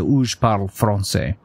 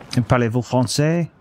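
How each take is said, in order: First: "français" with the R rolled at the front of the tongue; local French. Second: "Parlez-vous français?" with the R rolled at the back of the throat; international French. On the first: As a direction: tap the R of "français" on the tip of the tongue. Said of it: "you roll at the front of the tongue". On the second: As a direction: give "français" a uvular R from the back of the tongue. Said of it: "you kind of roll in the back". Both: Shown as a demonstration.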